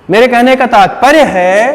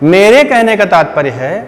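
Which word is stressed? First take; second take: तात्पर्य; मेरे. First: The stress falls on the word तात्पर्य. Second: The stress falls on the word मेरे. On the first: "तो मैंने तात्पर्य पे जोर दिया" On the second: "देखो मैंने मेरे पे जोर दिया"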